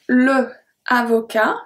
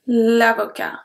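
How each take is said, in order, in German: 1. Der Vokal von le bleibt vor avocat erhalten. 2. Der Vokal von le fällt vor avocat weg. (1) "Le avocat becomes l'avocat" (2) "becomes l'avocat"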